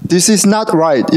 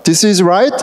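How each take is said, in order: First: Each word drawn out slowly; slow and deliberate. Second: Said in the usual way. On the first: Shown as a demonstration. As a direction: spell out "this is not right" word by word. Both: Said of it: "이렇게 딱 있어요".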